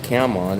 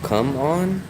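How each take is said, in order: First: The first vowel sounds like the one in 'camera'. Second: The first vowel sounds like the one in 'gum'. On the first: The speaker calls it wrong. "It's not cam on" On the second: The speaker calls it right. "it's like it's like come on"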